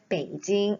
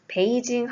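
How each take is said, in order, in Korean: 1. 중국어 성조가 뚜렷하게 들어가서 발음합니다. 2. 한국어 외래어처럼 평평하게 발음합니다. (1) "굳이 왜 소리를 베이징 이렇게 하시나요?" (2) "베이징 하면 될 것을"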